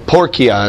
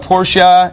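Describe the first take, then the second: First: The middle consonant is a hard k sound. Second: The middle consonant is soft, not a k. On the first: This is how it was said in ancient Latin. "It gets the hard K sound. So porcia is how they would have pronounced it" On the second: This is the modern way of saying it. "Portia is the way we pronounce it"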